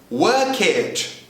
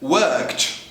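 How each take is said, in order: First: The ending is said as an extra syllable. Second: The ending adds no extra syllable. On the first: The speaker calls it wrong. "The tendency for Brazilians is to pronounce ed in the same way always" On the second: The speaker calls it right. "In the first case"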